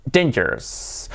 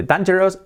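First: Dangerous as DEIN-jers; pronunciación correcta. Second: Dangerous wrongly as DAN-jeros; pronunciación incorrecta. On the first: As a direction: say "dangerous" with a long ei. (dangerous bien dicho, 'déin-yers') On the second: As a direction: say "dangerous" with Spanish a. (dangerous mal dicho, 'dan-yeros') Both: Shown as a demonstration. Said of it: "de dangerous a dangerous".

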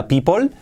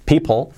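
First: PEOPLE with a Spanish O, "pípol", rising; wrong demo of people as "pee-pol"; mispronounced people. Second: PEOPLE with a reduced second vowel, "pípl"; correct people. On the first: (people mal dicho, "pípol") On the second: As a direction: model people without a full O. (people bien dicho, sin O clara) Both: Shown as a demonstration. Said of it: "que no sea people".

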